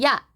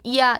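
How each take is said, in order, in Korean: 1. 모음은 하나의 짧은 음절로 발음합니다. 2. 모음은 두 개의 완전한 음절로 나뉩니다. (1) "야 이렇게 하잖아요" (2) "온전하게 이야 이렇게 발음하지 않고"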